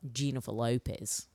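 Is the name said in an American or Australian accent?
Australian. The name is said in an Australian accent.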